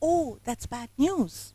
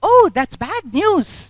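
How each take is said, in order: First: It is said softly in a low voice. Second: It is said with lots of energy. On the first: The speaker calls it right. "Drop my voice ... in a lower tone. It has to be soft" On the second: The speaker calls it wrong. "if I'm putting in so much energy into that, would it sound right? Not at all"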